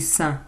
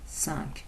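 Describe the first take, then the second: First: The final k sound is left silent. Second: The final k sound is pronounced. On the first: The number comes before a consonant. "avant un nom qui commence par une consonne, on dit cinq" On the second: The number stands alone. "toute seule, on peut le prononcer cinq. Comme ici"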